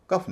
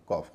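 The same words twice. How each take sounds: First: कफ said with a short a, as the wrong take; wrong pronunciation. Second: कॉफ said with a short open o, kɔf; correct pronunciation. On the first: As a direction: give कफ as the rejected reading. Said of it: "कफ नहीं होता". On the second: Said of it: "कॉफ होता है". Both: Shown as a demonstration.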